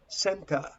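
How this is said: It is said in a British accent. "but British pronounce center"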